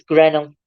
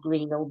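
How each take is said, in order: First: "Grenell" as GREN-ul; short e in Grenell; Grenell, squeezed to GREN-ul; village pronunciation. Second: "Greenhill" with a long ee; Greenhill, first part like green; disliked pronunciation. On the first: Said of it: "it's Grenell". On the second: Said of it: "they don't like it being called". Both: Shown as a demonstration.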